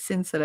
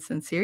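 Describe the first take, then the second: First: The name is said with French-sounding vowels. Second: The name is said with plain English sounds. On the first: This is the pretentious pronunciation the person insists on. "You are not freaking French" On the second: This is the ordinary pronunciation being rejected. "My name isn't sincere"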